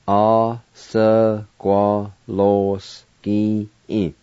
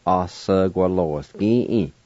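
First: "Osagwaloski-in" very slowly, every syllable drawn out. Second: Said in the usual way. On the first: Shown as a demonstration. Teacher pronouncing sawmill for learners, slow syllables. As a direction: stretch each syllable of "Osagwaloski-in" apart. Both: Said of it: "now I'll pronounce these words".

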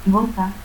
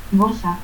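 First: Said in the usual way. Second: Bosa, with S for the Z of boza; seseo. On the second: Shown as a demonstration.

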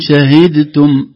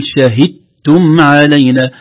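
First: Slow "شهدتم" with d sounded; wrong reading. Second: Slow "شهدتم" d merged into t; correct assimilation. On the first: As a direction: pronounce the d in "شهدتم". ("شهدتم" بإظهار الدال) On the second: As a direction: say "شهدتم" as shahittum. (إدغام الدال في "شهدتم") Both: Shown as a demonstration. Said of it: "لا نقول".

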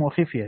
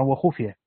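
First: وخفية as "wa-khifya", i after kh; "wa-khif-ya", the kasra reading of وخفية; kasra on kha. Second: وخفية as "wa-khufya", u after kh; "wa-khuf-ya", the damma reading of وخفية; damma on kha. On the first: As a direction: say وخفية with a short i on the خ. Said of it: "بكسر الخاء". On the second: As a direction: say وخفية with a short u on the خ. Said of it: "وقرأ الآخرون بضمها". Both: Shown as a demonstration.

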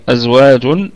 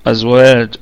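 First: أزواج recited slowly with a rising tune; recited Quran word. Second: أزواج recited with a falling close; recited Quran word. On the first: Teacher recites أزواج for students, tajweed recitation. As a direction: recite أزواج in tajweed style, all letters light. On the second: Teacher models أزواج at the stop, tajweed recitation. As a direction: recite أزواج ending firmly on the jim. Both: Shown as a demonstration. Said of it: "الكلمة كلها مرققة".

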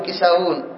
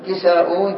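First: كساؤون said as kisawun, hamza turned into waw. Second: كساؤون with the hamza kept before the ending. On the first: Teacher showing the second allowed form, waw instead of hamza. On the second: Teacher showing the first of two allowed forms, hamza kept. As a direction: say كساؤون keeping the glottal stop. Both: Shown as a demonstration. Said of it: "لماذا لنا وجهان؟".

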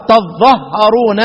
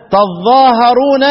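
First: تظهرون with the doubled ظ, slowly; shortened reading. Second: تظاهرون with the long ظا, slowly; long reading. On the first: (قراءة تظهرون ببطء) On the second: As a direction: recite تظاهرون drawn out. (قراءة تظاهرون بالمد) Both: Shown as a demonstration. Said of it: "بس هتبقى ثلاث قراءات".

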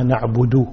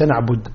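First: نعبد as "na'budu" with full final u; clear damma. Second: نعبد ending on a bare d; missing damma. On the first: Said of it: "وإنما". (إظهار ضمة نعبد) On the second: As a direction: stop نعبد at "na'bud", no u. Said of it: "لا، ليس". (نعبد بدال ساكنة) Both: Shown as a demonstration.

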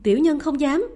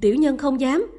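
First: Louder, higher frantic begging; desperate repeated plea. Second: Loud, frightened begging; fearful pleading. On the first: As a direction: beg again, more desperate. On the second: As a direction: plead for your life. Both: A narrator's reading. Kneeling servants plead in fear.

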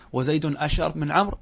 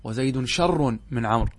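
First: أشر opening on a short a before sh; full hamza form. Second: شر starting straight on the sh sound; hamza dropped. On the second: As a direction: say شر with no initial hamza. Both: Shown as a demonstration. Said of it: "نتخفف من الكلمة فنحذف منها الهمزة".

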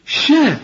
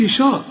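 First: High "شا" with a thin, fronted a; light sh. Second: "شا" with a dark, backed a; mistaken heavy sh. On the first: Teacher modelling the right syllable, light sh. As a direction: say "شا" light, leaning toward "she". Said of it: "كل شين في القرآن شا". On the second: Teacher warning against the error, heavy sh. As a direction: thicken the vowel of "شا". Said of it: "ما تقولش". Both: Shown as a demonstration.

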